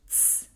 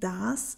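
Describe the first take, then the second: First: The article is shortened to a single sound. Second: The article is said in its full form. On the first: This is the Swiss German form. "wird zu z" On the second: This is the Standard German form. "das wird zu z"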